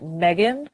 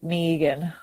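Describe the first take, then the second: First: The name is said the American way. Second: The name is said with a long 'ee' vowel. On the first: "in America, ... you guys pronounce it Megan" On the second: "in Australia, ... like it has two E's"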